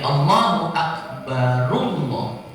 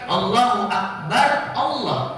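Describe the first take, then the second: First: Akbar links into Allah with a u vowel. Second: Akbar ends on a bare r sound. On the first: The speaker calls it right. "Padahal itu ro-nya do, dhammah" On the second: The speaker calls it wrong. "bukan Allahu Akbar Allah. Jadi ro-nya disukun"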